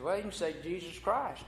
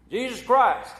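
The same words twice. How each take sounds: First: Said in the usual way. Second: High, loud blurted Jesus Christ; startled exclamation. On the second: Retold or imitated. Bar patron exclaims at the frog, startled and loud.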